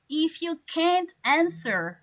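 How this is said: It is said in an American accent. "people from America or Canada, they will say"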